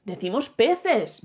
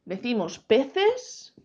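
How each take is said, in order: First: "peces" lento, con final descendente; respuesta afirmada. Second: "peces" lento, con final ascendente; pregunta de prueba. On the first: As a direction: afirma "peces" despacio, cerrando el tono. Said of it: "¿verdad?". ("peces" estirado y rotundo, bajando al final) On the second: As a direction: pregunta si se dice "peces", alargándolo y subiendo. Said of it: "¿Yo qué digo?". ("peces" estirado en tono interrogativo) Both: Shown as a demonstration.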